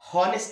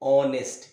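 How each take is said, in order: First: The word begins with an audible h sound. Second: The word begins directly with a vowel sound. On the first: The speaker calls it wrong. "హానెస్ట్ man కాదు" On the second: The speaker calls it right. "ఇక్కడ కూడా హెచ్ silent"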